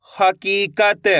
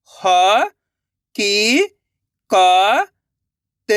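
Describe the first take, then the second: First: हकीकत joined into one slow word; blended word. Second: ह, की, क, त held, with gaps; syllable by syllable. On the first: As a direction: say हकीकत whole, drawn out. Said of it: "तो मिलके बन जाएगा". (हकीकत मिलाकर, धीरे से) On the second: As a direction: sound out ह, की, क, त one by one. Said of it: "एक एक अक्षर का उच्चारण करके". (ह, की, क, त अलग-अलग) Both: Shown as a demonstration.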